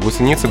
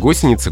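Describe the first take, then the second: First: The stress falls nearer the middle of the word. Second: The stress falls on the first syllable. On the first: The speaker calls it wrong. "ударение хотят сдвинуть ближе к середине слова" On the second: The speaker calls it right. "только так"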